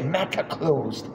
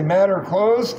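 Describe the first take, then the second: First: It is said in a British accent. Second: It is said in an American accent. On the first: The speaker calls it right. "you have to say" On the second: The speaker calls it wrong. "like a gringo, uh, like we would say"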